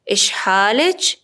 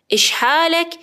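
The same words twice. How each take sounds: First: اشحالچ with final -ech; slow اشحالچ rising to a ch; feminine ending. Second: اشحالک with final -ek; higher اشحالک, closing on a k; masculine ending. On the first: Teacher models greeting a woman, اشحالچ with final ch. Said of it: "طرف مقابل خانم باشه". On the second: Teacher models greeting a man, اشحالک with final k. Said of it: "طرف مقابلم آقا باشه". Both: Shown as a demonstration.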